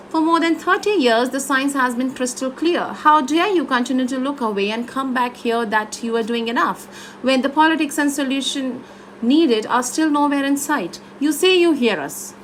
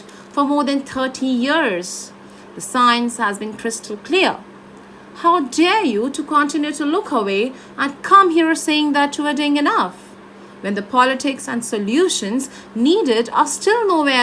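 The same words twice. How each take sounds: First: Phrases run together with little pause; first version, run-on. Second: Measured, with "years", "clear" and "enough" given weight and pauses; last-word emphasis. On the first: Coach shows the student one way of reading, run-on phrases. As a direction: read straight through without lingering on last words. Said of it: "This is the one part". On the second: Coach shows the student the next version, deliberate phrase-end emphasis. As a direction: separate each thought, landing firmly on "years", "clear", "enough". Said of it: "you need to emphasize the last word of the thought".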